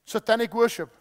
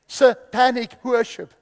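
First: Said in the usual way. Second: "Satanic worship" drawn out slowly and louder; over-enunciate "Satanic worship", syllable by syllable; careful enunciation. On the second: Shown as a demonstration. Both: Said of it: "that's just my accent".

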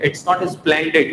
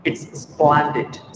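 First: "splendid" as "is-plen-did"; plain e in "splendid", vowel before the s; wrong pronunciation. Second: "splendid" as "SPLAN-did"; corrected pronunciation. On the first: ("splendid" को "इस्प्लेंडिड" बोलकर) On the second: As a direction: open the e of "splendid" to a. ("splendid" को "स्प्लैंडिड" बोलकर) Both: Shown as a demonstration.

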